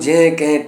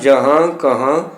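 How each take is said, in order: First: The words have short vowels without nasal endings. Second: The words end in long nasal vowels. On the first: The speaker calls it wrong. "जड़ा कि गलत उच्चारण है" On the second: The speaker calls it right. "इन्हां लफ्ज़ों का उच्चारण जहां कहां तहां करना है"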